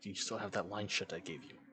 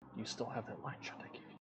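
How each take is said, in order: First: It is said more loudly. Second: It is said very quietly.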